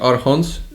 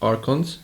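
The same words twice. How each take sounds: First: The word is said with a Polish-style pronunciation. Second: The word is said with an English pronunciation. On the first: This is how the group usually says it. "I know we are saying Archons" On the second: This is how it is said in English. "but in English it's Archons"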